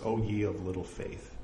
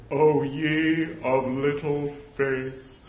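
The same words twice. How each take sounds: First: Said in the usual way. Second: Slow, intoned, grandly reproachful; mock-solemn Jesus. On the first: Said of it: "might have been laughing a little". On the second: Shown as a demonstration. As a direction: draw it out like a grave pronouncement. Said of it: "assume that he said".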